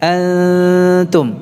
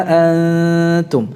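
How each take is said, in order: The two takes are said the same way.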